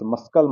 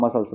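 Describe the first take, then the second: First: मस्कल with a hard k after s; c sounded as k. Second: मसल्स with no k sound; silent c. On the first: Teacher warning learners off this reading, k sounded in मस्कल. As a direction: put "sk" in the middle of मस्कल. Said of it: "मस्कल मत पढ़िएगा". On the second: Teacher showing the correct reading, silent c in मसल्स. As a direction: go from s straight on in मसल्स. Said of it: "इसमें सी मुख होता है". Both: Shown as a demonstration.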